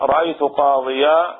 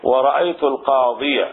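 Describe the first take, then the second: First: "قاضيا" slow, ending in long aa; open accusative ending. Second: "القاضية" ending in short -iya; accusative with article. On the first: Teacher showing the accusative without article, long open ending. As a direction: draw out the final alif of "قاضيا". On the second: Teacher showing the accusative with article, fatha ending. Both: Shown as a demonstration. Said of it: "بالنسبة للمفتوح".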